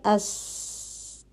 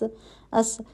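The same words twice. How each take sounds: First: The s sound is held with continuing air. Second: The s sound is cut off abruptly. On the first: The speaker calls it right. "आवाज़ जारी रहती है" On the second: The speaker calls it wrong. "ऐसे नहीं पढ़ रहे हम"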